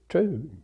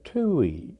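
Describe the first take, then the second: First: The name is said as one syllable. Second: The name is said as two syllables. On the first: This is how the speaker's own branch of the family says it. "I and my father and my children all pronounce it Tews" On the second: This is how the older generations of the family said it. "my older family, including my grandparents, pronounced it Tuies"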